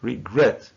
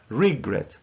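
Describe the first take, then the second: First: Regret correctly stressed as re-GRET; re-GRET, last syllable strong; stress on second syllable. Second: Regret wrongly stressed as RE-gret; mis-stressed RE-gret as a counterexample; stress on first syllable. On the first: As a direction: model regret with the weight on GRET. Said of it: "So we say". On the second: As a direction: say regret with the weight on RE, drawn out slowly. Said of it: "not regret". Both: Shown as a demonstration.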